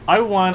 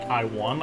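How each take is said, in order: First: It sounds smug and self-satisfied. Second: It sounds shocked and questioning.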